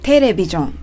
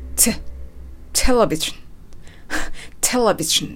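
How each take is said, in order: First: The first T sound is soft and weak. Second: The first T sound is strong and forceful. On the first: The speaker calls it wrong. "テレビジョンではなく" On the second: The speaker calls it right. "T の音を強くしていただきたい"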